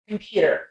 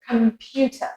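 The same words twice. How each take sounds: First: American accent, ending in a strong r. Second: British accent, ending in a soft schwa.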